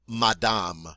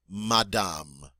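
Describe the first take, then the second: No difference in how they are said.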